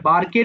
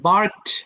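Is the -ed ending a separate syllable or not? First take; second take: separate syllable; not separate. First: The ending is pronounced as an extra syllable. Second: The ending joins the word as one syllable. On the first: The speaker calls it wrong. "এটা বার্কেড বলো না" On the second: The speaker calls it right.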